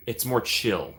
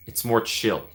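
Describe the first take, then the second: No difference in how they are said.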